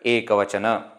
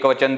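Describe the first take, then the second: First: The word ends with a short final 'a' vowel. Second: The word ends on a consonant, without final vowel. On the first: The speaker calls it right. "actually in Sanskrit, ekavachana" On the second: The speaker calls it wrong. "Don't say ekavachan"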